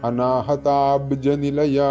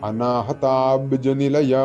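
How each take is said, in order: The two takes are said the same way.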